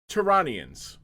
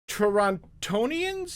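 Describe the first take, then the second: First: The second T is dropped. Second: The second T is clearly pronounced. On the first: The speaker calls it right. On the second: The speaker calls it wrong.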